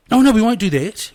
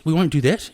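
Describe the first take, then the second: First: Sudden loud self-correction, high; surprised. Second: Said in the usual way. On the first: Real, not acted. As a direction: catch yourself, half laughing. Catches himself mid-sentence.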